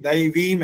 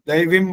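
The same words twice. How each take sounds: First: The vowel before the final m is long. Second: The vowel before the final m is short. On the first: The speaker calls it right. "जब ये दैवीम है" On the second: The speaker calls it wrong. "दैवीम बोला इन्होंने, छोटी की मात्रा बोली है"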